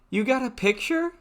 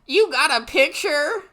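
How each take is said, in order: First: It is said in a regular girl voice. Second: It is said in an exaggerated character voice.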